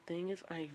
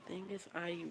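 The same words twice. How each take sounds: The two takes are said the same way.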